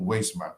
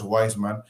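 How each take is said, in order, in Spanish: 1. La primera vocal suena como la 'ei' de reina. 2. La primera vocal suena como 'eye' en inglés. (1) "Entonces, ahí sí rimas" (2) "si dices reina y si dices Wiseman, ya no te rima"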